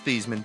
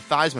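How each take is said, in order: First: The first syllable does not rhyme with 'Heis'. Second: The first syllable rhymes with 'Heis'. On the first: This is the original family pronunciation. "it was Theismann" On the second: This is the changed pronunciation that matches the trophy. "changed it to Theismann"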